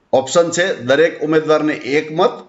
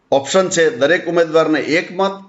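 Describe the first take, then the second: No difference in how they are said.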